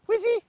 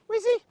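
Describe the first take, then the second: Both takes have the same delivery.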